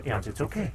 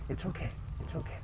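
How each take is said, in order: First: Said in the usual way. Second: Soft breathy it's okay, okay; whisper to calm the dog. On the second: Real, not acted. Whispering to the anxious dog yawns: soothing hush.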